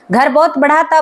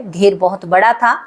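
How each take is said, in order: First: घर said correctly with a short a, pitched higher; self-correction. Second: घेर said with a short e for घर, a slip; a quick mispronounced घेर before the correction; slip of the tongue. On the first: Narrator corrects himself on the house, a higher घर. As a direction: fix the word to घर. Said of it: "घेर बहुत बड़ा था". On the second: Narrator misspeaks घेर while describing the house. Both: Real, not acted.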